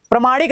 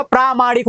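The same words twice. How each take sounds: First: प्रमाणिक opened as pra; short first vowel. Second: प्रामाणिक opened as praa; long first vowel. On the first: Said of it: "नहीं होता". (प्रमाणिक, छोटा प्र) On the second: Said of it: "आ की मात्रा लग जाती है". (प्रामाणिक, लंबा प्रा) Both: Shown as a demonstration.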